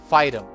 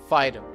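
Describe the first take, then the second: Both takes have the same delivery.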